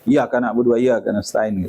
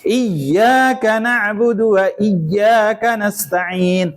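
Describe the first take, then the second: First: The y sound in iyyaka is short and single. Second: The y sound in iyyaka is held doubled. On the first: To fire I worship. The speaker calls it wrong. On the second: You alone we worship. The speaker calls it right.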